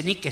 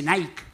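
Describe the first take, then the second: First: "Nike" said as NEE-keh; Spanish-style Nike. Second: "Nike" said as one syllable, NIKE like "naik"; English-style Nike. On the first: Shop girl quoting the customer's mistake, "Nike" as NEE-keh. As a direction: say "Nike" as spelt in Spanish, two syllables. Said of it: "No se dice Nike". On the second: Shop girl correcting a customer, "Nike" pronounced "naik". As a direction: say "Nike" with an "ai" and silent e. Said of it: "se dice Nike". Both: Retold or imitated.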